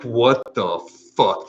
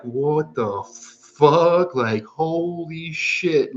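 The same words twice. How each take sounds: First: Higher, louder, slowed bewildered "What the fuck?". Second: Very high, very slow, drawn-out "What the fuck?"; stunned disbelief. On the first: Waking mid-trip and not knowing where you are, higher and slow. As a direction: stretch out "What the fuck?" a bit high and loud in confusion. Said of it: "and it's like". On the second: Sitting up mid-trip and finding everything insane, very high and slow. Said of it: "and you're like". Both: Retold or imitated.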